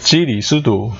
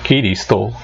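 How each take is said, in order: First: The word begins with a J sound. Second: The word begins with a G sound. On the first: This is the modern Beijing pronunciation. "지금 현대 북경어 발음으로는" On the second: This is the old pronunciation. "옛날 발음은 기리스도였답니다"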